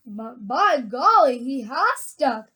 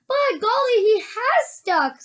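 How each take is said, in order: First: Put-on slow, understated older-man voice; grandpa. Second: Put-on high, amazed boy voice; young boy. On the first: Grandfather watching the stuck boy, slow and measured. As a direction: say it slowly at a low-key pitch. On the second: Charlie seeing the boy stuck, high and amazed. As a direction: exclaim high, drawing out the end. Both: A narrator's reading.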